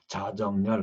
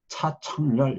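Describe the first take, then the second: First: The first syllable starts with a plain sound. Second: The second syllable starts with an aspirated sound. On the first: "자정렬 하거나" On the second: "차청렬 이렇게 하거나"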